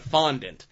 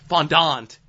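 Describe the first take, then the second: First: The word is pronounced in an ordinary, plain way. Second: The word is pronounced in a fancier, showier way. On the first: "instead of fondant" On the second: "calling it fondant ... because they want to make what they're doing sound more impressive"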